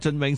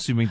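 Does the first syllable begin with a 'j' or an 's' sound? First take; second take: j; s. First: The first syllable begins with a 'j' sound. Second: The first syllable begins with an 's' sound. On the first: This is how it was sung on the earlier song. "佢因为嗰时唱咗俊永" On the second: This is how it was sung on the later song. "所以而家唱翻算命"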